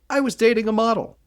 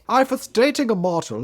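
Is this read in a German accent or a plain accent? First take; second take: plain; German. First: It is read in a plain, non-German accent. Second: It is read in a put-on German accent. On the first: The speaker calls it wrong. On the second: The speaker calls it right.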